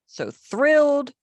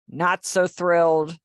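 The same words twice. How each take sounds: First: Thrilled. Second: Said in the usual way. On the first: Shown as a demonstration. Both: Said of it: "Notice the inflection takes place on the face".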